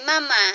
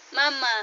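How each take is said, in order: First: Put-on Mama said slow and clear for the baby; clear demo word. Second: Said in the usual way. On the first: Shown as a demonstration. Mother showing her baby how to say Mama, clearly. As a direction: model the word Mama carefully, a bit louder.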